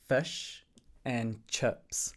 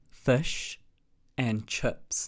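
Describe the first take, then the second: First: It is said with a New Zealand accent. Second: The same.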